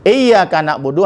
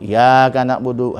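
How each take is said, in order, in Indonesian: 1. Bunyi y itu dibaca panjang dan dobel. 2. Bunyi y itu pendek dan tunggal.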